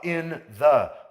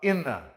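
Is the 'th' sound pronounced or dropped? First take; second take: pronounced; dropped. First: The two words are separate, with the 'th' sound. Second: The words run together and the 'th' is dropped. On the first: "em vez de falar in the" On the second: "fala in the"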